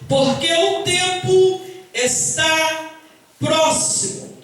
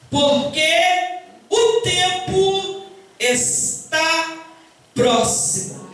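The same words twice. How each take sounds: First: It is read at a normal speaking pace. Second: It is read very slowly and deliberately.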